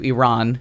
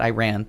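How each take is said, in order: First: The first syllable sounds like 'ih'. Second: The first syllable sounds like 'eye'. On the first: The speaker calls it right. "Iran, not Iran" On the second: The speaker calls it wrong. "I'm saying it wrong too"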